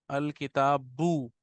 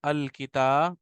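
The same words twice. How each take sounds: First: अल किताबू drawn out slowly, syllable by syllable; teacher dictating अल किताबू very slowly; slow dictation. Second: Said in the usual way. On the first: Shown as a demonstration. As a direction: spell out अल किताबू slowly for students to write. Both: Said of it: "लिखेंगे हम अल किता".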